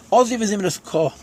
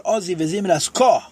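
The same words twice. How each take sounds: First: Said in the usual way. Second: Slowly, leaning on the final word Ko; slow, stressed Ko. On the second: Shown as a demonstration. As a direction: draw it out and land on Ko. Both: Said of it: "what is the connotation?".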